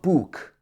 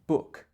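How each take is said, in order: First: The vowel is longer, with the tongue further forward. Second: The vowel is short, with the tongue far back. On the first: The speaker calls it wrong. "It's not book" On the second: The speaker calls it right. "Your tongue is much further back. It should be book"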